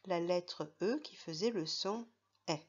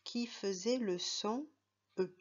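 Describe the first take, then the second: First: E said as an open è, like in "mer"; E ouvert; open è sound. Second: E said as a closed é, like in "été"; E fermé; closed é sound. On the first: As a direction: make E sound like è. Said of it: "Et dans la deuxième colonne". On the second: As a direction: make E sound like é. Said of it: "on avait mis tous les mots où on voyait le E". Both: Shown as a demonstration.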